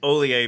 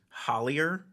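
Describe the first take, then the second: First: The name is said the French way, without H. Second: The name is read the English way, with an H. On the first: This is how the family actually says it. The speaker calls it right. "but it's Olier because of your French roots" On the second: This is how English spelling would suggest it. The speaker calls it wrong. "If if you were going to say it phonetically in English, it's Hollier"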